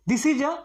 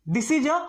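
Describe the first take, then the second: The two takes are said the same way.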